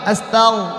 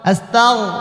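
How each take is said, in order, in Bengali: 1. এটা গলা থেকে আসা 'gh' ধ্বনি দিয়ে বলা হয়। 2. এটা গলা থেকে আসা 'gh' ধ্বনি দিয়ে বলা হয়।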